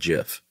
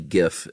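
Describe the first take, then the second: First: The word begins with a J sound. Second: The word begins with a hard G. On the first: The speaker calls it wrong. "and not GIF" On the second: The speaker calls it right. "definitely GIF"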